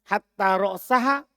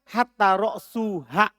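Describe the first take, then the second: First: The vowel before -ha is a. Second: The vowel before -ha is u. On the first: Hatta is read as a conjunction with the accusative. "dengan dibaca nasab" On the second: Hatta begins a new clause with the nominative. "Dan boleh ropa"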